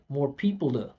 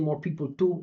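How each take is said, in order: First: The t in 'to' is a soft flap. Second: The t in 'to' is a crisp, full t. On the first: The speaker calls it right. "I would use flat T" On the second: The speaker calls it wrong. "He's saying more people do, or T O O"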